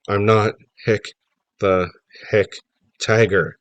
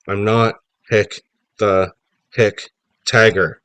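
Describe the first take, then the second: First: It is said at normal, quieter volume. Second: It is said louder.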